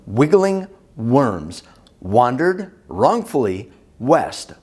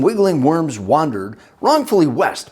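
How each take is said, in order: First: It is said slowly. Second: It is said at normal speed.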